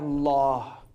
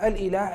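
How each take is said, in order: First: The word is said in a short, contracted form. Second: The word is said in its full, longer form. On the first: Continued use wore the word down over time. "as the usage continued" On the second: This is the original form of the word. "people would essentially say al-ilah"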